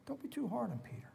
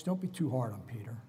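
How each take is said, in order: First: Soft repeat. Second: Said in the usual way. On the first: Shown as a demonstration. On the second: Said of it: "repeated softer".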